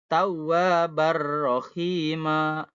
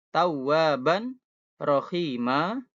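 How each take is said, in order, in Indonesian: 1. Bunyi n menyatu dengan huruf r. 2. Bunyi n dipertahankan sebelum huruf r. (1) "An-nya jadi ar" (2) "yang awalnya"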